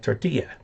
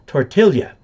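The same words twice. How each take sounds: First: The double L is pronounced like a 'y' sound. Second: The double L is pronounced like an 'ly' sound. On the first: This is the Mexican Spanish pronunciation. "Mexican Spanish. The double L is ya, like tortilla" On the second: This is the pronunciation from Spain. "the Spanish pronunciation from Spain, the L L is L Y"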